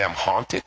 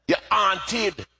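First: Said in the usual way. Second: Higher-pitched Jamaican mother's telling-off; Jamaican accent. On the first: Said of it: "I didn't understand what she's trying to say". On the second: Retold or imitated. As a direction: scold a child in a Jamaican accent. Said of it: "in her Jamaican accent".

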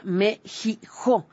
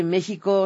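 First: "México" broken into slow syllables, Me-ji-jo; mock the name México as "Me-ji-jo"; "México" turned into a drawn-out "Me-ji-jo"; mimicked "Me-ji-jo" pronunciation. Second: Said in the usual way. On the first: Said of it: "México se pronuncia Mexijo". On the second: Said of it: "decir que México se pronuncia".

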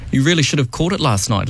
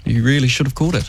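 First: Dry sarcastic tone. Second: Exaggerated sarcastic repeat. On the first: Acted. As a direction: say it with mock sincerity. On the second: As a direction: lean into the sarcasm.

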